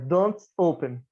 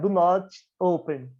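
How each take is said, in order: First: The negative is contracted into one short syllable. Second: The negative is said as two full words. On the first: The speaker calls it right. "a maneira correta de pronunciar é don't open" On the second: The speaker calls it wrong. "não seria legal pronunciar do not open"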